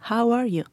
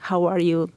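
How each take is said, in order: First: It sounds warm and sincere, with real interest. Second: It sounds quick and casual, without real interest.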